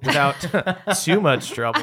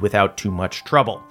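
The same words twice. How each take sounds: First: The phrase is said in a sarcastic tone. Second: The phrase is said in a plain, sincere tone. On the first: The fight was actually a real struggle. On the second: The fight really was easy.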